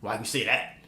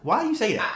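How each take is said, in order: First: It sounds mildly annoyed and restrained. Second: It sounds strongly incredulous and openly scornful. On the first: The speaker is slightly irritated by the remark. The speaker calls it wrong. "Hers tone was like" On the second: The speaker thinks the remark is absurd. The speaker calls it right. "It should be like, what? What? What?"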